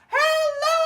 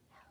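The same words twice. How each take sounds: First: It is said loudly. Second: It is said quietly.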